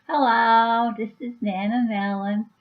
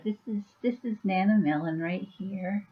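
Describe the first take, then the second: First: Lightly put-on Rhode Island grandma greeting; a Rhode Island accent like Lois from Family Guy. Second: Said in the usual way. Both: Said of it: "and she talks like this".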